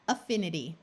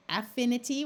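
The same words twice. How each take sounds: First: Affinity opening on a weak "uh"; schwa in affinity. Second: Affinity opening on a clear "a" as in cat; short A in affinity. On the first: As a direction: say affinity as uh-FIN-ity. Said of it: "or you could schwa it". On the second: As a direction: say affinity as AF-finity. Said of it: "affinity with a short A". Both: Shown as a demonstration.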